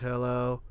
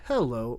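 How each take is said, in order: First: It is said in a flat monotone. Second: It is said with wide pitch variation. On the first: "the very neutral monotone" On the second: "make as many variations in the sound as possible"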